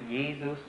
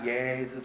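First: The first vowel is closed, almost like E. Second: The first vowel is open, with the jaw dropped. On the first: The speaker calls it right. "but Jesus? It's almost like E" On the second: The speaker calls it wrong. "and not Jesus"

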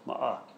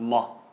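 First: An extra short vowel makes two syllables. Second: The short vowel is dropped, leaving one syllable. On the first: The speaker calls it right. "So you do pronounce that. It's ma'a" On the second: The speaker calls it wrong. "not ma"

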